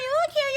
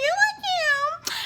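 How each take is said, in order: First: High, sing-song fake-friendly girl voice; playing Kiki, high and syrupy; mock Kiki greeting. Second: High, drawn-out fake-sweet compliment; gushing Kiki, slowed and high; slow sing-song. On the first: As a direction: gush it like a fake-sweet friend. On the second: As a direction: stretch "look" up, syrupy and slow. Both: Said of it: "she was like".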